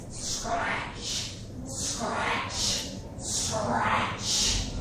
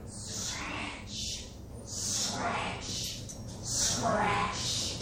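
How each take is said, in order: First: Rasping, whispery scratch, clearly audible; louder scratching. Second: Whispered, drawn-out scratching noise; very soft, rasping scratch with long hissed endings; imitated scratching. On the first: Retold or imitated. Storyteller imitating louder scratching at night, drawn out. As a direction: stretch the scratch noise out with more force. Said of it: "a little bit louder". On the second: Storyteller imitating the critter at night, softly scratching. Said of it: "and it went".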